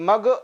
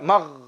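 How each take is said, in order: First: The 'gh' sound bounces abruptly. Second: The 'gh' sound flows out smoothly. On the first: The speaker calls it wrong. "Kemudian huruf gho jangan sampai memantul" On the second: The speaker calls it right. "Dia harus mengalir suara tadi keluar"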